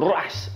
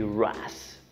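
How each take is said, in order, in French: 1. Les lettres sont épelées avec un accent espagnol. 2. Les lettres sont épelées avec un accent anglais. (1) "en espagnol" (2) "à l'anglaise"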